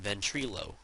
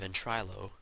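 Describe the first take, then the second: First: The middle syllable sounds like 'tree'. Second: The middle syllable sounds like 'try'. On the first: "I'm calling it Ventrilo because it looks like tree" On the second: "No, it's try"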